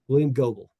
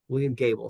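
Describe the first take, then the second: First: The surname's vowel sounds like 'go'. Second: The surname's vowel sounds like 'gay'. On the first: "I'll go with Goble" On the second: "I hope I'm pronouncing that name correctly"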